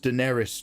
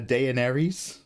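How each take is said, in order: First: The first vowel is said plainly, without a warble. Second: The first vowel has an extra warble in it. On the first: "Her name is Daenerys Stormborn" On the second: "because of that A E, I always call her Daenerys. I like the extra warble"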